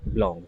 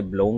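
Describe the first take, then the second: First: बिलोंग with open 'aw', as 'blawng'; correct pronunciation. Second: बिलोंग with a round 'oh', as 'blohng'; common mispronunciation. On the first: Teacher repeats the word for students, correct pronunciation. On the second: Teacher shows how some people say it, common mispronunciation. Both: Shown as a demonstration. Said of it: "कुछ लोग इसे बिलोंग बोल देते हैं".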